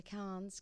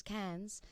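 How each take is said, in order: First: "Cairns" said as "Kahns", open back vowel; long AH vowel. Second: "Cairns" said as "Kans", front vowel as in "cans"; flat A vowel. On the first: Singer naming the town she visited, "Cairns" said as "Kahns". Corrects own pronunciation of Cairns. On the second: Singer correcting herself on the town, "Cairns" said as "Kans". Second take, self-corrected pronunciation. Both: Real, not acted.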